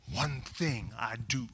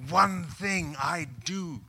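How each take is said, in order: First: "One thing I do." said slowly, each word weighted; slow emphatic reading. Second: "One thing I do." very slow, stressing "One" with conviction; Paul's emphatic declaration. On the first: Shown as a demonstration. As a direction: lean on "One". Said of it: "Can you say that?". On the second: Retold or imitated. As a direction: declare it like shoving all chips in. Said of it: "I hear Paul writing this".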